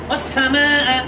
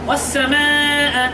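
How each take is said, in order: The two takes are said the same way.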